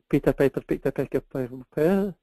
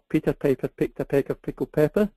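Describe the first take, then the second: No difference in how they are said.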